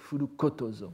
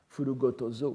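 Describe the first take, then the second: First: The third syllable starts with a voiceless consonant. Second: The third syllable starts with a voiced consonant.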